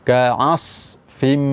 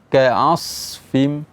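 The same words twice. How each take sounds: No difference in how they are said.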